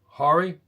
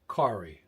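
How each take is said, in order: First: The name begins without a k sound. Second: The name begins with a k sound. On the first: "K is silence" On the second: "You know why I pronounced the K?"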